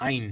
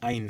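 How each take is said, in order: The two takes are said the same way.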